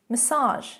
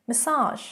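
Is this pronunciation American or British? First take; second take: American; American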